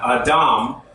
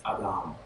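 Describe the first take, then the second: First: "Adam" with a hard English D, said as a plain stop; the wrong way, a crisp hard D in "Adam"; "Adam" with a firm, stopped D. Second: "Adam" with a soft D close to a TH sound, said quieter; the right way, D softened toward TH in "Adam"; "Adam" with a breathy, noisy D like TH; soft Hebrew D. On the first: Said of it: "It's not Adam". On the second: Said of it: "form of a T H sound". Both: Shown as a demonstration.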